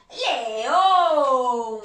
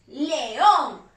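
First: "león" held long and loud, pitch falling; drawn-out reveal. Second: Said in the usual way. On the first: Shown as a demonstration. Teacher revealing the animal to children, drawn-out reveal. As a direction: stretch "león" out like a roar. Reveals answer, stretched, then repeats shorter.

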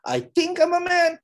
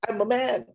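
First: Much higher, hesitant and mocking; a wobbly unsure claim, played for laughs; I think said high and doubtful. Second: High, bold and certain; a proud, sure I'm a man; confident declaration. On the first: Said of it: "Would you be confident with him?". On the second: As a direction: announce it with full confidence. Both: Shown as a demonstration.

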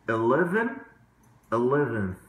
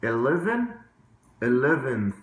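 Both takes have the same delivery.

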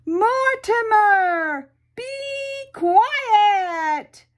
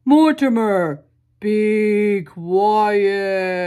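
First: High, loud drawn-out yell of Mortimer; tremendous loud yell. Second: Louder, lightly voiced stern policeman; a hint of a stern officer at the door; deep policeman voice. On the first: Acted. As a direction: shout the name up the stairs, long and loud. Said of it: "yelled in a tremendous loud voice". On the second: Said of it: "in a very deep policeman-type voice".

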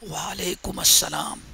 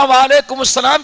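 First: Very soft, low reply so no one hears; hushed reply. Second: Said in the usual way. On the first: Retold or imitated. Companion answering the Prophet's greeting in a near whisper. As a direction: answer under the breath. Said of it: "صحابی نے چپکے سے آ کے کہا". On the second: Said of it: "اتنے آہستہ سے کہا".

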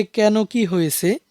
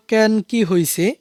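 First: Slow standard reading of হয়েছে; standard Bangla. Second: Slow regional reading of হইছে; regional Bangla. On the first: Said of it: "এই বাক্যটির প্রমিত রূপ হবে". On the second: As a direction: say হইছে the dialect way, slowly. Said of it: "প্রথম আঞ্চলিক বাক্যটি ছিল". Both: Shown as a demonstration.

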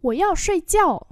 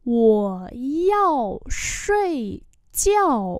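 First: Said in the usual way. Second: Broken into slow separate syllables; slow teaching repeat. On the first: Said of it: "normal model". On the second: Shown as a demonstration. Teacher slowly models the phrase for students, drawn out. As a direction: stretch every syllable for beginners. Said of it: "slow repeat".

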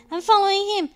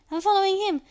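Both takes have the same delivery.

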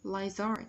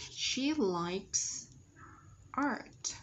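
First: "Lizard", meaning "likes art" with no break; linked sounds. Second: "likes", a pause, then "art"; separated words. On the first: Teacher repeating the linking demo, "Lizard" joined without pause. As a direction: slide "Lizard" together as one linked word. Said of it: "nối âm". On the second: Teacher dictating the answer to students, "likes" and "art" apart. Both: Shown as a demonstration.

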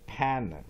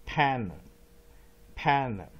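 First: Said in the usual way. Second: Panna said louder, stress on pan, weak final na; weak vowel demo. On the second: Shown as a demonstration. Teacher drills the weak second syllable of panna, louder. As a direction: punch pan, let the na fade weak. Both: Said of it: "弱母音panna".

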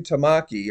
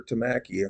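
First: Tamaki with a broad "ah", tuh-MAH-kee; alternative pronunciation. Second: Tamaki with a short flat "a", tuh-MACK-ee; alternative pronunciation. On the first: Host trying one way to say a preacher's name, Tamaki as tuh-MAH-kee. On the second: Host correcting himself on a preacher's name, Tamaki as tuh-MACK-ee. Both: Shown as a demonstration. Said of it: "however you say it".

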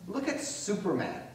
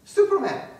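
First: Said in the usual way. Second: Much higher and louder "Superman", falling hard; big theatrical shout of "Superman"; exclaimed name. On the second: Acted. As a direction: belt the name out like a reveal. Repeats name as punchline.

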